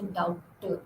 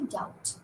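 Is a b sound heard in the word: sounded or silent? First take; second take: sounded; silent. First: A b sound is pronounced before the t. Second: No b sound is pronounced before the t. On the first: The speaker calls it wrong. "You don't say doubter" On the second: The speaker calls it right. "So you say doubt"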